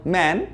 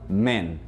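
First: Man with a wide-open A, like "mæn". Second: Man said shorter with a closed E, like "men". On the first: Teacher contrasts singular for students, wide open A. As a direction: drop the jaw on man. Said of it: "a gente abre mais a boca". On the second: Teacher contrasts plural for students, short closed E. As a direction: clip the vowel of man short. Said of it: "É mais curtinho". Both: Shown as a demonstration.

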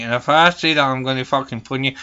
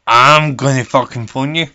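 First: Said in the usual way. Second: Louder, hammering each word; emphatic repeat. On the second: Acted. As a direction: drive it home, louder. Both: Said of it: "I'm the fucking Angry Granny".

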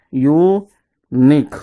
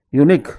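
First: "unique" drawn out as u - nique; split into syllables. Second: Said in the usual way. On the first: Shown as a demonstration. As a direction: pause inside "unique", after the u. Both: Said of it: "divide the word into syllables".

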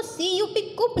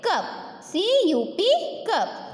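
First: C यू P कुप, the wrong way, u as in put; spelling it out as "कुप". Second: "कप" said with a short open a, like cup; "कप" with the a of but. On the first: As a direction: say "कुप" with a rounded u. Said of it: "हम इसको ... नहीं बोलेंगे". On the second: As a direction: correct it to "कप", open a. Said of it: "हम इसको बोलेंगे". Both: Shown as a demonstration.

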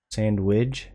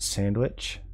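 First: SANDWICH ending in a voiced "widge", questioning. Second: SANDWICH ending in a crisp "witch", questioning. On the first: Trying out the word for chat, "Sandwich" as sand-widge. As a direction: say "Sandwich" with a j sound at the end. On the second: Trying out the word for chat, "Sandwich" as sand-witch. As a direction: say "Sandwich" with a ch at the end. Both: Shown as a demonstration. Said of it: "I can't tell if I like".

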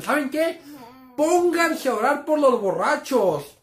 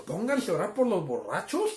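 First: Higher, louder, slow stern command; stern mom. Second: Said in the usual way. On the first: Retold or imitated. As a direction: lay down the law like an angry mother. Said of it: "Mi mamá nos dijo". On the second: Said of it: "psicología reversa".

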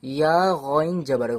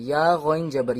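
First: ইয়া গইন জবর spelled out slowly, letter by letter; slow letter-by-letter recital; slow spelling recitation. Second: Said in the usual way. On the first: Shown as a demonstration. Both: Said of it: "তারপরে দেখুন".

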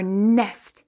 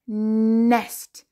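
First: Said in the usual way. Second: "Nest" with a long nnn at the start; stretched first sound. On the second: Shown as a demonstration. Teacher showing what N says, "Nest" begun on a long nnn. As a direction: hold the N of "Nest" before the vowel.

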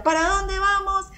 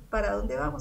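First: Higher, slowed preacher's call to the crowd; rallying call. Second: Said in the usual way. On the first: Retold or imitated. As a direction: call it out like a preacher rousing the room. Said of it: "todo el mundo tenía que gritarle". (llamada alta y lenta de predicador a la multitud) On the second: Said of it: "Sebastián ... dijo eso".

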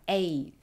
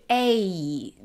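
First: A said short, second half lighter; light ending. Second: A stretched out as if singing; exaggerated. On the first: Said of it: "就讲的后面比较轻". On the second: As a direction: overdo both halves of the A glide. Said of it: "我夸张一些啊". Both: Shown as a demonstration.

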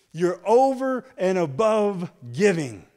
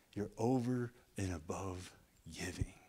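First: Loud, higher proclamation of "over and above"; preached loud. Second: Soft, lower "over and above"; quiet repeat. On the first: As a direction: shout "over" with a long fall. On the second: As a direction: pull it down to an intimate murmur. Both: Shown as a demonstration.

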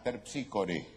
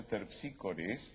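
First: "terpsícore" slowly, ending on an open E; correct singular form. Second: "Terpsícores" echoed with a long hissed final S; wrong plural form. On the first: Shown as a demonstration. Colleague correcting to one muse, slow "terpsícore" without final S. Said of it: "Es una terpsícore". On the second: Retold or imitated. Colleague objecting to a plural muse, drawn-out final S on "Terpsícores". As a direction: quote "Terpsícores", dwelling on the wrong S ending. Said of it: "si es una sola".

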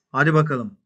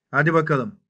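The two takes are said the same way.

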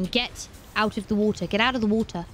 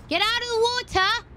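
First: Said in the usual way. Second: Shrieking way up high; high yell. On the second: Real, not acted. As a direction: yell it out in a panic. Yelling at creature in water.

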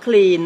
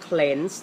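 First: Clean with a long EE; common mispronunciation. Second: Cleanse said as "klenz"; slow, careful cleanse with the E of "pen"; short E vowel. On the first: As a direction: say clean, "kleen", where cleanse is meant. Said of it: "เราชอบออกเสียงว่า". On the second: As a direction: model cleanse with E, never EE. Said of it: "จะออกเสียงว่าสระเอนะลูกนะ". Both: Shown as a demonstration.

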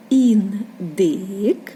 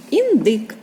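First: Індик slowly, as ін, pause, дик; split into syllables. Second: Said in the usual way. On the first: Shown as a demonstration. Teacher showing children a word's syllables, індик read slowly in two parts. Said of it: "Скільки складів у цьому слові?". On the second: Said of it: "Два склади у слові індик".

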